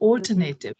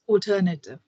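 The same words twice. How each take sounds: First: It is said the typical Indian way. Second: It is said the standard British way. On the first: The speaker calls it wrong. "in India, ... we tend to say" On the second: The speaker calls it right. "The correct pronunciation is"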